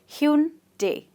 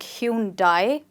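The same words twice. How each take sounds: First: The last syllable sounds like 'day'. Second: The last syllable sounds like 'die'. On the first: The speaker calls it right. "but we rather say day" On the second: The speaker calls it wrong. "We end up calling it like Hyundai, which is absolutely wrong. We do not say D I E die"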